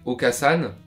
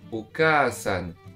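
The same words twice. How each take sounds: First: The vowel after the k is short. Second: The vowel after the k is held long. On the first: The speaker calls it wrong. "C'est pas comme ça que ça se prononce" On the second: The speaker calls it right. "c'est ça la voyelle longue. C'est ce A là qui est long"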